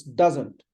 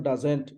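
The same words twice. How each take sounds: First: Doesn't as DUZ-unt, falling; "doesn't" with a weak second syllable; correct doesn't. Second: Doesn't as duz-ENT, rising; "doesn't" with a clear 'ent' ending; mispronounced doesn't. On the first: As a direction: say doesn't with the stress on the D. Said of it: "It's doesn't". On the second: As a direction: say doesn't wrongly with a full second vowel. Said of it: "It's not doesn't". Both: Shown as a demonstration.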